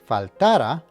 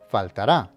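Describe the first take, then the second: First: The stress falls before the last syllable. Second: The stress falls on the last syllable. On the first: The speaker calls it wrong. "make sure that you don't pronounce this word faltara" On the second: The speaker calls it right. "the emphasis is on the last syllable"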